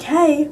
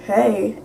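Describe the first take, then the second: First: Raised-pitch "hey"; bright greeting. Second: Said in the usual way. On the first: Retold or imitated. Greeting a boy she never met, high greeting. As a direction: greet him with a lifted, higher voice. Acting out greeting him by name. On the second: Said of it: "he didn't know me at all".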